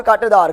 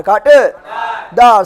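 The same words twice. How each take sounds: First: Said in the usual way. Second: कांटेदार slowly, broken as कांटे… दार; drawn-out drill. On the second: Shown as a demonstration. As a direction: stretch and split कांटेदार for the class to echo. Teacher splits term for class.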